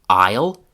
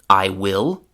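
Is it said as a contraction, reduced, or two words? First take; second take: contraction; two words. First: It is said as one contracted word. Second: It is said as two full words. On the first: "the contraction" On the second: "the classroom pronunciation"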